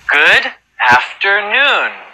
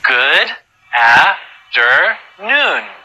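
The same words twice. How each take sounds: First: It is said at a fast pace. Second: It is said at a slow pace.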